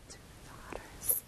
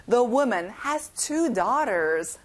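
First: Whispered repeat. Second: Slow, clear teacher model; slow model reading. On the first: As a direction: breathe it softly as an echo. (속삭이듯) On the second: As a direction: say it slowly for students to repeat. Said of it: "let's say it one more time". (천천히 또박또박 시범) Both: Shown as a demonstration.

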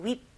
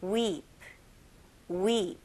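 First: "weep" with a short, quick vowel; short Korean-style weep. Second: "weep" with a long, held "ee"; long English vowel. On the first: Teacher mimicking the Korean pronunciation, short "weep". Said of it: "우리나라 발음으로 그냥". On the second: Teacher modelling English pronunciation, long "weep". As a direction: stretch out the "ee" in "weep". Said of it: "영어 발음은 좀 길게". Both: Shown as a demonstration.

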